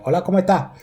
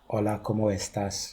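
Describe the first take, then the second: First: It is said in a regional accent, S dropped. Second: It is said in standard Spanish, S fully pronounced.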